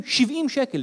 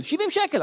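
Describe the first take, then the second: First: Said in the usual way. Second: Higher, indignant repeat; שבעים שקל repeated high and indignant; 1 outraged repeat. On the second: Shown as a demonstration. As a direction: say the price again in disbelief.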